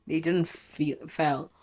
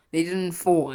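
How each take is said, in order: First: Slow slip saying "feel" for "fall", then "fell"; slipped word. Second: "fall" said clearly as the fix; corrected word. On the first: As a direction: stumble on "feel" before "fell". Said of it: "They didn't fall, I mean". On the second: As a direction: land the word "fall" firmly. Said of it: "I mean". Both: Real, not acted.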